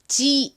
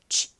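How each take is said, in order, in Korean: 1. 충분히 분명하게 울리는 소리예요. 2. 약하게 바람 빠지는 소리예요. 울림이 거의 없어요. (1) "지 이게 아닙니다" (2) "바람 빠지듯이 소리를 내주셔야 됩니다"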